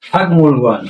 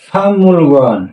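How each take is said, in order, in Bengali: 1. প্রথম সিলেবলটি k ধ্বনিতে শেষ হয়। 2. প্রথম সিলেবলটি ng ধ্বনিতে শেষ হয়।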